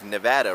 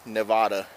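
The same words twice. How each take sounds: First: It is pronounced the way locals say it. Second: It is pronounced the way outsiders say it. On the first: The speaker sounds like they have been there. The speaker calls it right. "instead of" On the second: The speaker is not from the state. The speaker calls it wrong. "Most people not from Nevada say it"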